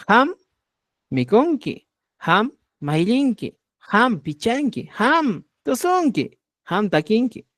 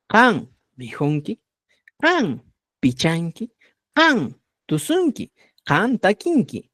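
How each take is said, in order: First: "Ham" with a breathed h and final m; Chanca pronunciation. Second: Slow model phrases, "Kan" with a hard k; Cusco pronunciation. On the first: Teacher turns the verbs into Chanca, "ham" with breathed h and m. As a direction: say each "ham" higher, h in place of k. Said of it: "un poquito más de quechua chanca". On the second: Teacher models verbs for students, "Kan" in Cusco style with hard k. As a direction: say each "Kan" with a hard k and final n, slowly. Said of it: "Si voy hablando un poquito más de quechua chanca". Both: Shown as a demonstration.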